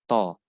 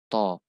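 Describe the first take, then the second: Both takes have the same delivery.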